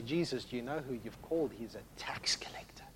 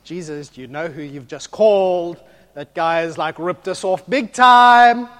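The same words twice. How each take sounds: First: Hushed aside. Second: Disciples protest to Jesus, outraged and loud; indignant protest. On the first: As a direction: drop to a lower, soft whisper at the end. Disciples muttering aside to Jesus. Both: Retold or imitated.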